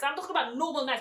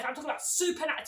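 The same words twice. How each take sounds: First: "normal" leaned on, as the lesser kind of nice; stress on normal. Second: "super" punched high as the winning contrast; stress on super. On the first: Cashier defending how customers were today, stress on "normal". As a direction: set "normal" up for contrast. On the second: Cashier insisting customers were extra nice, stress on "super". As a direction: hit "super" hard to top normal. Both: Real, not acted.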